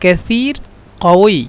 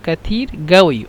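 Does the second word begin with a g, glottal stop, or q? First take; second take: q; g. First: Standard form, with th and q sounds. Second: Regional form, with t and g sounds. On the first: This is the original standard form. "তো কাসির কওই মূলত" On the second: This is how Upper Egyptians say it. "যারা আহলুস সাঈদ তারা কফকে গইন হিসাবে উচ্চারণ করে"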